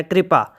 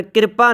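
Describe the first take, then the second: First: ਕਿਰਪਾ with k and r joined, kri-pa; ਕਿਰਪਾ as one cluster, kri-pa; correct pronunciation. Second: ਕਿਰਪਾ with a full i vowel after the k, ki-rpa; ਕਿਰਪਾ split as kir-pa, the way it should not be said; wrong pronunciation. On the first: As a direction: say ਕਿਰਪਾ as kri-pa, the i moved onto the r. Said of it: "ਇਸ ਤਰ੍ਹਾਂ ਦੇ ਨਾਲ ਇਹਦਾ ਉਚਾਰਨ ਹੈ". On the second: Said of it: "ਇਹਦਾ ਉਚਾਰਨ ਕਿਰਪਾ ਨਹੀਂ ਕਰਨਾ". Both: Shown as a demonstration.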